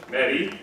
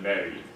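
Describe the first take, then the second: First: Mary with a high front E; higher Mary. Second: Mary with the tongue back, darker. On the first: Teacher showing the tongue-forward Mary. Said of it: "It's just higher". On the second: Teacher showing the tongue-back Mary. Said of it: "rather than". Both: Shown as a demonstration.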